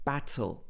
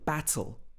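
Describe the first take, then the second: First: The T is pronounced clearly and fully. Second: The T is pronounced clearly and fully.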